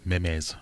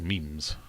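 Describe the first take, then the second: First: "Memes" said in two syllables, meh-mez; mispronounced Memes. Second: Said in the usual way. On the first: Retold or imitated. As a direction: say "Memes" as MEM-ez, imitating a colleague. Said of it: "as I heard someone in work call it".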